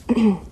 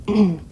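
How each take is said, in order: No difference in how they are said.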